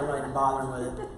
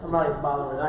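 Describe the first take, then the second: First: Quick, low, laughing dismissal; laughing quote. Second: "not" leaned on firmly; stress on not. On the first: Earl brushing off the roller coasters, quick and laughing. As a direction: toss it off fast through a laugh. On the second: Earl repeating his refusal, firm stress on "not". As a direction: hit "not" in "I'm not even bothering". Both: Retold or imitated. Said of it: "Earl's like".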